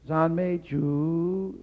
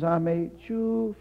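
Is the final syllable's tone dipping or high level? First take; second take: dipping; high level. First: The last syllable has a dipping tone. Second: The last syllable has a high level tone. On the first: It means praise the Lord. The speaker calls it right. "It's a third tone" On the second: It means praise the pig. The speaker calls it wrong. "First tone"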